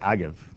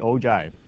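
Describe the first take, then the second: First: The g is said as a hard g. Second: The g is said softly, like a j. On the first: The speaker calls it wrong. "I've been going agiv" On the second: The speaker calls it right. "it is actually ogive. You almost look at the G as a J"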